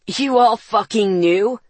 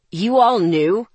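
First: Louder furious growl from the brother. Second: Bitten-out anger. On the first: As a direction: escalate into a growl. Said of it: "Ethan growled". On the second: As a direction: bite it out in disbelief. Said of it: "Ethan bit out". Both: Acted.

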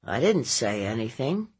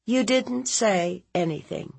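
First: Evasive nephew. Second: Higher, questioning echo; disbelieving aunt. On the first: Nephew denying to his aunt, subdued and evasive. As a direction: deny it in a subdued boyish mumble. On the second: Aunt challenging her nephew's denial, high and sceptical. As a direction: throw the denial back in disbelief. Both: Acted.

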